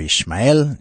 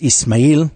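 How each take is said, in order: First: The name is said in its Hebrew form. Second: The name is said in its Arabic form. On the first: "in Hebrew" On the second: "in Arabic"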